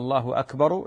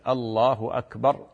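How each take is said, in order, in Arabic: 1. تنتهي الكلمة الأخيرة بحركة مضافة. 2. تنتهي الكلمة الأخيرة بساكن. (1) "أما الله أكبر لهذا ما يصلح" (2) "العرب تقف على الساكن الله أكبر هكذا"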